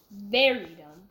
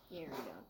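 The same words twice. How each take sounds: First: "very" hit loud; stress on VERY. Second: Much lower and softer repeat; quiet echo. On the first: Boy judging party throwers, stress on "very". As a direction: punch the word "very" hard. Son stressing his judgement, then repeating. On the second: Boy echoing his own judgement, quiet aside. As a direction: drop it to a low afterthought. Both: Real, not acted.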